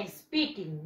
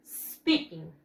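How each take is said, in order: First: Speaking with an e added in front, "es-peaking"; wrong pronunciation. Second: Speaking starting straight on a long hissed s; low, falling "sss-peaking", no vowel before the s; correct pronunciation. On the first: Teacher warns students what it is not, mistaken "espeaking". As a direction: put a Spanish "eh" before the s of speaking. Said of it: "No es speaking". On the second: Teacher corrects the class, clear model of speaking as "sspeaking". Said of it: "no, es". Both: Shown as a demonstration.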